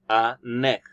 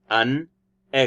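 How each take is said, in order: First: The n sound joins onto the next word. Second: The two words are said separately. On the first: "It sounds like a neck" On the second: "not an egg"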